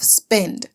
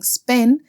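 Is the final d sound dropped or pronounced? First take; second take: pronounced; dropped. First: The final d sound is clearly pronounced. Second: The final d sound is left off. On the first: This is the Standard English form. "instead of" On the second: This is the Trinidadian Creole form. "the constant omission of voice consonants, such as saying"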